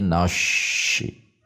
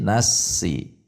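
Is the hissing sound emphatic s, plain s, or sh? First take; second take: sh; plain s. First: The s is turned into an sh sound. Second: The s is a plain, light s sound. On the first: "Menjadi shin besar" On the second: "Kalau menjadi sin"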